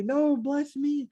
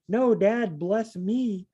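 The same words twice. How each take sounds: First: Put-on high, slow, whining plea like a spoiled kid; whiny begging son. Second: Higher, urgent plea to dad; pleading son. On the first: Esau whining at his father for the blessing, high and slow. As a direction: stretch it out, a sulky child begging. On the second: Pretend. Esau pleading with his dad after the blessing is gone, raised pitch.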